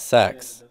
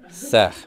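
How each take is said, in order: First: The word ends in a plain 'ks' sound. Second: The word ends in a rasping 'kh' sound. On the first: The speaker calls it wrong. "It's not sex" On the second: The speaker calls it right. "We pronounce that sech"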